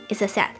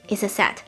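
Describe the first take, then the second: No difference in how they are said.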